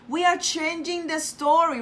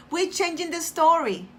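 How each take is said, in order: First: "are" spelled out and leaned on; "We ARE changing" with the word "are" pressed firm; stress on are. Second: Said in the usual way. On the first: Shown as a demonstration. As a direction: insist on "are" instead of "we're".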